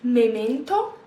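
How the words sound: It is said with an Italian accent. "I shouldn't say it with an Italian accent"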